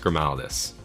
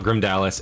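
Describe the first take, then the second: First: The name has 'al' right after 'Grim'. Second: The name has a 'd' right after 'Grim'. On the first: The speaker calls it right. "it's Grimaldis. Okay. A L, not Dia" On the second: The speaker calls it wrong. "It's not Grimdalis"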